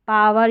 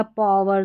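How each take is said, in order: First: First "पावर" with a long open aa, paa-var; open AA vowel. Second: Second "पावर" with a rounded vowel, paw-var. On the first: ("पावर" में लंबा आ, पा-वर) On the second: ("पावर" में गोल ऑ, पॉ-वर) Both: Shown as a demonstration. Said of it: "दोनों तरीके से pronounce कर सकते हैं".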